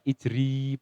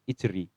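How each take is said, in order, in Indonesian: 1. Vokal akhirnya panjang. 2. Vokal akhirnya pendek. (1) "bukan dibaca ijri panjang mboten" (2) "tapi ijri pendek"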